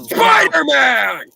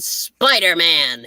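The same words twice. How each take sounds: First: The word is shouted loudly and strained. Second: The word is said calmly at normal volume. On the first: The speaker calls it right. "Now that my throat is effectively killed" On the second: The speaker calls it wrong. "But you said it wrong"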